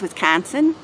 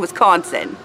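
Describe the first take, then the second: First: It is said in a local Wisconsin accent. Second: It is said in a non-local accent. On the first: The speaker calls it right. "I think it's Wisconsin" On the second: The speaker calls it wrong. "I would say Wisconsin, but it's not"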